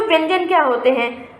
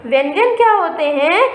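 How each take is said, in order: First: Said in the usual way. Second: व्यंजन क्या होते हैं with क्या stressed and the pitch rising at the end; asked as a question. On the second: Shown as a demonstration. Teacher quizzing her pupils, rising question tune. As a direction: turn it into a question for the class, ending up. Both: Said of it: "इसके बाद मैं आपको बताती हूँ बच्चों".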